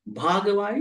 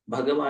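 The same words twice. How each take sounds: First: The word is said with a long A vowel. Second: The word is said with short vowels. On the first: It means eligible or deserving. "Bhagava is eligible, ... this is what we call long A" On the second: It names the Buddha. "Bhagava is the Buddha"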